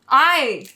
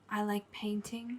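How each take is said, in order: First: It is said loudly. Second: It is said quietly.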